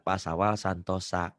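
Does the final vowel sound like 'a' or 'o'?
a. The final vowel is an 'a' sound. "Ada huruf Sunda"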